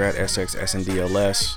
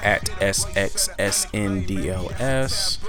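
First: It is said at normal speed. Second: It is said more slowly.

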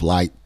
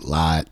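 First: It is said with standard pronunciation. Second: It is said with an Appalachian pronunciation.

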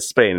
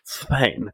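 First: The S is said as a plain s. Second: The S is said with a lisp. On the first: "instead of saying Spain" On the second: "pronounce the letter S like a F sound"

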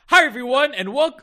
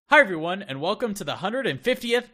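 First: It is said with too much excitement. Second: It is said with too little excitement.

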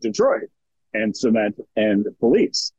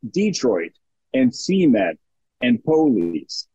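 First: The stress falls on the last syllables. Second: The stress falls on the first syllables. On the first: This is a northern regional pronunciation. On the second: This is a southern regional pronunciation.

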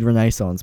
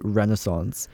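First: It is said with a non-American pronunciation. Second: It is said with the American pronunciation. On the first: This is how the speaker has always said it. "I've always said Renaissance" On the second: This is how Americans say it. "the Americans say Renaissance"

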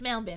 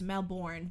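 First: It is pronounced the Australian way. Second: It is pronounced the North American way. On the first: "But they're like, no, it's Melbourne" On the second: "the way, like, we in Canada and the States would pronounce that word"

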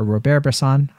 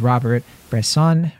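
First: The name is said with French pronunciation. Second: The name is said with English pronunciation. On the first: The speaker calls it right. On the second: The speaker calls it wrong.

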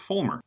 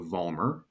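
First: The name begins with an F sound. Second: The name begins with a V sound. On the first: This is how the name is said in Germany. The speaker calls it right. "Germany is pronounced Vollmer with an F" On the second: This is the habitual pronunciation used outside Germany. The speaker calls it wrong. "I've been mispronouncing my name for my entire life"

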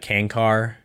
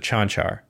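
First: Both C sounds are said as a hard k. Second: Both C sounds are said as ch. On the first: The speaker calls it wrong. "The announcers never say his name right. It's always, I mean, it's usually like Kankar" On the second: The speaker calls it right. "the ch sound for a C. So Chanchar"

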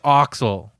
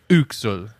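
First: The first vowel sounds like 'oh'. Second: The first vowel sounds like 'oo'. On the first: The speaker calls it wrong. "I don't think it's Oxel" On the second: The speaker calls it right. "with the umlaut O, they pronounce it U, like Uxel"

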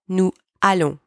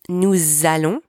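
First: The words are kept apart with no z. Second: The words are joined by a z sound. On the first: The speaker calls it wrong. "not nous allons" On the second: The speaker calls it right. "You've got to link the two words together with the Z sound"

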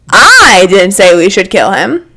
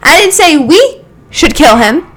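First: The stress falls on the word 'I'. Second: The stress falls on the word 'we'.

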